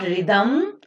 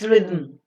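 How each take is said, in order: First: A vowel is said before the final m. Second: The final m forms a syllable without a vowel. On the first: The speaker calls it wrong. "It is not" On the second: The speaker calls it right. "you can never be introducing any vowel sound in between them"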